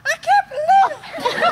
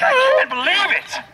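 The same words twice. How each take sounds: First: Very high, drawn-out wail of disbelief; hammed-up, stretched falsetto exasperation; passionate frustration. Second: High-pitched, upset outburst; hammed-up frustrated disbelief; passionate frustration. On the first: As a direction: squeal it slowly with overblown passion. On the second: Shown as a demonstration. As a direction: act out her exasperation in a raised pitch. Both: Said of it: "this passion in her voice".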